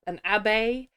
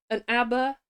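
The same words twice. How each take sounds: First: Abbe ending in "ay"; abbe said another way. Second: Abbe ending in an r-coloured "er"; abbe said one way. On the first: Reader testing how to say "abbe", "ab-BAY". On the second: Reader testing how to say "abbe", "AB-er". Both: Shown as a demonstration. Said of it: "is it an abe".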